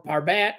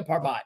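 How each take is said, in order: First: Parbat rhyming its ending with "cat"; alternate pronunciation. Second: Parbat ending in a "baht" sound; alternate pronunciation. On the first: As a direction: say Parbat as "par-BAT". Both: Shown as a demonstration. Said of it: "not sure exactly how to pronounce it".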